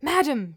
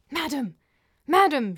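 First: High, loud repeated call. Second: High, urgent hissed call. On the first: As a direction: call out sharply through a closed door. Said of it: "she called again". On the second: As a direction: hiss it loudly to get her attention. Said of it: "she hissed". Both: A narrator's reading.

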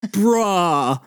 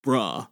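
First: Drawn-out amazed reaction at full voice; stunned disbelief. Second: Low, soft, short reaction; stunned understatement. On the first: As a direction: stretch the word in awe. Stunned Mikey repeats it bigger. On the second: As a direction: murmur it low in disbelief. Stunned Mikey, first low take. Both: Acted.

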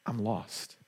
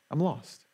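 First: Soft, hushed "I'm lost" with a falling end; hushed first "I'm lost"; quiet confession. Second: "I'm lost" said a little firmer, stress on "lost", falling; dawning realization. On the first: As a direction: let "I'm lost" sink to almost nothing. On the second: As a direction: land on "lost" as it sinks in. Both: Pretend. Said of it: "is recognizing".

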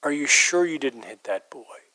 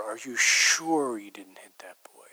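First: Sure leaned on hard; quoting the woman, sure emphasized; stress on sure. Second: Slow eerie whisper leaning on sure; a stranger's unsettling whispered question, sure stressed. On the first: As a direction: press the word sure. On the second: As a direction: whisper it slowly, hitting sure. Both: Retold or imitated. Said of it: "really emphasizing the word sure".

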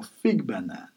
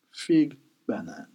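First: "fig banane" run together, feeg ba-nan; French pronunciation. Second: "Fig banane" split, feeg, pause, ba-nan; word-by-word French. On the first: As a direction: model "fig banane" as one French phrase. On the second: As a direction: teach French "Fig banane" with a gap between words. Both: Shown as a demonstration. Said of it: "And in French".

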